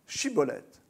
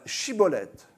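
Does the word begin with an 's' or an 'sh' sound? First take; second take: sh; sh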